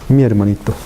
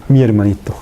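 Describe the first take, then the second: The two takes are said the same way.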